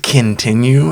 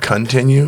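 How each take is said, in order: First: The word is said with altered sounds. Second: The word is said with standard sounds. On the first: The speaker calls it wrong. "She says continue instead of" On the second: The speaker calls it right. "instead of continue"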